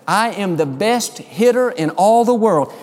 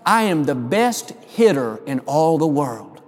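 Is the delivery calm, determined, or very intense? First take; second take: determined; calm. First: It is said with more determination. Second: It is said in a calm, plain way.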